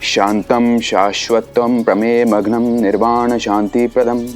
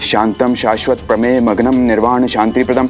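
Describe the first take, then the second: First: The verse is recited at a fairly quick pace. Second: The verse is recited at its fastest pace. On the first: "जल्दी पढ़ सकते हैं?" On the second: "थोड़ा और तेज।"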